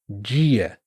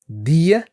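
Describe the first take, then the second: First: The word starts with a soft 'dj' sound. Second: The word starts with a hard d sound. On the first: "muitos brasileiros vão falar" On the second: "com o D duro"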